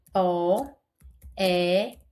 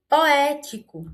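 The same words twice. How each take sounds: First: Poético very slow, é stretched long; drawn-out E. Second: Poético with the é loud and high; pulled-out E. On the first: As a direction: drag out the é of Poético. (Poético bem devagar, esticando o é) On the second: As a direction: lean on the é of Poético. (Poético puxando no é) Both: Shown as a demonstration. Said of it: "eu puxei mais no E".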